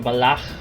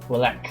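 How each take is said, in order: First: The name is said with a foreign pronunciation. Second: The name is said with an English pronunciation. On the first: "if you're foreign, you're gonna say Valach" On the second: "if you're English speaking, I think you say"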